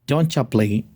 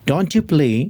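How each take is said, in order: First: Don't you blends into one word, doncha. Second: Don't and you are said as separate words.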